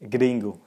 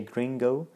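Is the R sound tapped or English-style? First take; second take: tapped; English-style. First: The R is a quick tongue tap. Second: The R is a soft English-style R. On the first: The speaker calls it right. "you need to tip this R" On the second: The speaker calls it wrong. "they don't say gringo"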